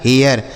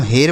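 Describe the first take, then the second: First: हेयर in two syllables, "he-yar"; "e-ya" pronunciation. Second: हेर as one syllable with a plain long "e"; one unbroken vowel in हेर; mispronounced हेर. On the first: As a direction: glide from "e" into "ya" before the r in हेयर. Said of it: "उच्चारण ए य के रूप में होगा". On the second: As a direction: say हेर wrongly, with no "ya" glide before the r. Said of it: "यहाँ पर भी इसे ऐसे नहीं पढ़ना है". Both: Shown as a demonstration.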